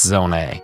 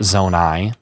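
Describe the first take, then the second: First: The name ends with an 'ay' sound. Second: The name ends with an 'eye' sound. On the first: The speaker calls it right. "it's it's Zone A" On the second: The speaker calls it wrong. "that's incorrect"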